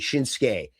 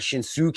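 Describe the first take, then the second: First: The u after the s is silent. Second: The u after the s is clearly voiced. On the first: The speaker calls it right. "It's just Shin, Shinsuke" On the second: The speaker calls it wrong. "It's not Shinsuke"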